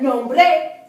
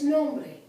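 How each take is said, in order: First: The stress is on the last syllable. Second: The stress is on the first syllable. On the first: The speaker calls it wrong. "It's not nombre" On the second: The speaker calls it right. "it's nombre"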